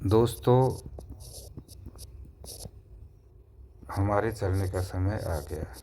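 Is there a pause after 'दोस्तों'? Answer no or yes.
yes. There is a pause after the first word. The friends are called to attention first. The speaker calls it right. "अल्प विराम प्रयोग हुआ"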